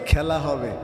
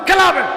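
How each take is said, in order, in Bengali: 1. বাক্যাংশটি ধীরে বলা হয়েছে। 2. বাক্যাংশটি দ্রুত বলা হয়েছে। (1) "এটা তো এইভাবে বলতো। ... আর এটা একটু আসতে বলছে।" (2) "এরকম করে দ্রুত বলতো"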